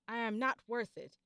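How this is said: It sounds angry.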